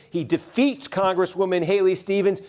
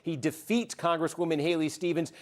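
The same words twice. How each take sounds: First: Upbeat on-air announcement; excited live call. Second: Calm, formal anchor read; serious newscaster voice. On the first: Real, not acted. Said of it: "put on the serious newscaster voice". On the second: Acted. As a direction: deliver it like a news bulletin. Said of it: "I'm gonna put on the serious newscaster voice here".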